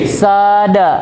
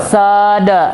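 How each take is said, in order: Both takes have the same delivery.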